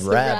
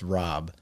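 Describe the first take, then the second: First: The vowel is a flat 'a' sound. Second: The vowel is an open 'ah' sound. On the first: This is how people around here say the name. "everyone just said Rabb" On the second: This is how the name is supposed to be pronounced. "my last name is supposed to be pronounced Rob"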